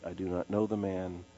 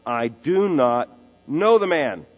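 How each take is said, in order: First: Much softer, lower, dropped to a hush; quiet denial. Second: Louder, slow, each word hammered; forceful denial. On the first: Pastor quietly repeats Peter's final denial, hushed and low. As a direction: let the denial sink to a hush. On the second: Peter swearing to the bystanders that he doesn't know Jesus, loud and slow. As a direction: deny it with full force. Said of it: "he repeats the outright denial". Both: Acted.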